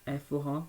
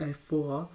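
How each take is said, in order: Both takes have the same delivery.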